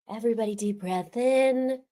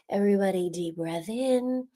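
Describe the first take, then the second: First: It is said in an ordinary speaking voice. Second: It is said in a smooth put-on announcer voice.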